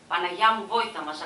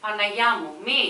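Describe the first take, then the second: First: Loud anguished plea; heart-rending cry. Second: Loud terrified wail; howl. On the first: Woman pleading to the Virgin for help, loud. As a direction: wail it to the Virgin. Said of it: "σπαραχτική γυναικεία φωνή". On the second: Woman howling to the Virgin as she flees, loud. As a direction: howl it in panic. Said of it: "ούρλιαξε". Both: A narrator's reading.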